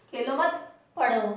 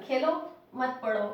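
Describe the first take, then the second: First: खेलो मत run together, then पढ़ो alone; pause after मत. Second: खेलो alone, then मत पढ़ो run together; pause after Khelo. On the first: Teacher shows "don't play, study", pausing after मत. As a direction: join Khelo to मत, break before पढ़ो. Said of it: "तो थोड़ी सी देर रुके". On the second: Teacher shows "play, don't study", pausing after Khelo. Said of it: "तो यहाँ पर रुकना है". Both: Shown as a demonstration.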